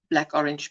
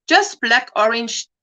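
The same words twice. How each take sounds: First: Softer aside. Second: Said in the usual way. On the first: Shown as a demonstration.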